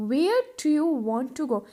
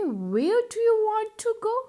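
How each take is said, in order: First: Calm drawn-out repeat; teacher repeating for the class; slow model repeat. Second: Drawn-out lifted question; teacher modelling the question slowly; slow, higher model question. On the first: (धीमा दोहराव) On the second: (धीमा, ऊँचा सवाल) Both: Shown as a demonstration. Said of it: "कैसे पूछोगे?".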